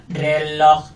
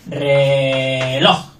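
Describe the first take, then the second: First: "reloj" as two equal monotone syllables; robotic pronunciation. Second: "reloj" with long low RE, then punched LOJ; stress on last syllable. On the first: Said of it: "no como el robot". ("reloj" robótico, sin sílaba fuerte) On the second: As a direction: stretch RE in "reloj" and land on LOJ. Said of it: "Nosotros decimos reloj". ("reloj" alargado, con LOJ fuerte) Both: Shown as a demonstration.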